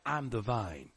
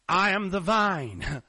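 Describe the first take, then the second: First: It is said in a plain, ordinary voice. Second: It is said in a dramatic preacher voice.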